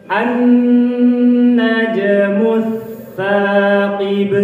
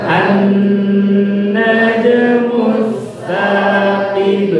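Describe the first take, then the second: Both takes have the same delivery.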